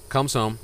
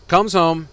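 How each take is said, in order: First: Said in the usual way. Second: Loud, high, punched resumption; emphatic restart. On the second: Real, not acted. Joke teller resuming after an aside, loud and emphatic. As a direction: pick the story back up loudly.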